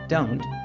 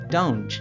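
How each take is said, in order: First: The t is a crisp, plain stop. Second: The t is softened into a hissing sound. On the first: "instead of saying don't" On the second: "they say don't"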